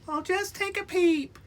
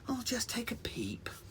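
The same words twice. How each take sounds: First: It is said in a put-on Pepper voice. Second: It is said in the reader's normal voice.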